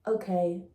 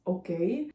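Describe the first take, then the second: First: Okay with no rise at the end; mocking German dub. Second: Short okay with a rising end; Ilya's okay. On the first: Mocking the German version of the trailer, level imitation. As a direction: lightly imitate a lifeless dubbed line, keeping it level. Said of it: "The German version was just like". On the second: Retold or imitated. Quoting the trailer's original line, lightly imitated with a rise. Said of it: "Ilya says".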